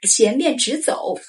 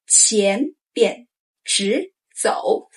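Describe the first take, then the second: First: Said in the usual way. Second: 前边直走 slowly, tones clear; drawn-out 前边直走; slow model phrase. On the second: Shown as a demonstration. Teacher modeling 前边直走 to say along, slow. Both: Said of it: "Say with me".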